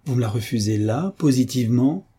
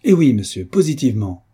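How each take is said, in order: First: Mildly mocking question, rising at the end; understated scoffing query. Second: Loud, pitched-up retort, falling at the end; emphatic exclaimed confirmation; exclaiming. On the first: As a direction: tease with feigned disappointment. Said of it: "poussant un gros soupir d'un air railleur". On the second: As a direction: fire back a final yes. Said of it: "s'écria monsieur de Mornan". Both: A narrator's reading.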